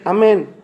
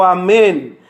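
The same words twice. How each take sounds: First: It is said quietly and fearfully. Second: It is said loudly with a raised voice.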